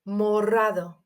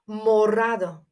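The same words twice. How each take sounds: The two takes are said the same way.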